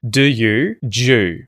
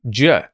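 First: The words merge into one syllable with oo. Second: The words merge into one syllable with schwa. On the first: "d and the ye merge, and you're going to hear J" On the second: "that oo sound ... is actually going to become a schwa as well"

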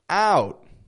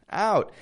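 First: The vowel is stretched out and long. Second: The vowel is stretched out and long.

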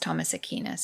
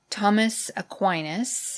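First: The name is said with a non-American pronunciation. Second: The name is said with an American English pronunciation. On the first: "I think it's Thomas Aquinas, actually, the pronunciation" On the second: "as we say in American English"

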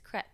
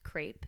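First: It is said with a French accent. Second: It is said with an American accent.

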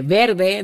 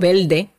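First: The first-syllable R is a standard R. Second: The first-syllable R is said as an L.

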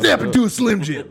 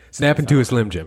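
First: It is said in a put-on gravelly impression voice. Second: It is said in the speaker's ordinary voice. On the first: The speaker calls it right. "Hey, brother. There it is" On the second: The speaker calls it wrong. "You didn't say it like"

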